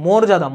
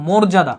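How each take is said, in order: First: মর্যাদা with a closed "o" first vowel; corrected pronunciation. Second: মর্যাদা with an open "aw" first vowel; spelling pronunciation. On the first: Teacher correcting students, মর্যাদা with mor. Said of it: "কিন্তু এটা হবে মর্যাদা". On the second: Teacher showing the written form, মর্যাদা with mawr. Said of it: "এটা মর্যাদা লিখে". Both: Shown as a demonstration.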